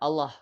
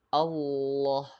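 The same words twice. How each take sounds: First: The L sound is short, not held. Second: The L sound is held long and pressed. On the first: The speaker calls it wrong. "Bukan Allah" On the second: The speaker calls it right. "tapi Allah, lamnya ditekan"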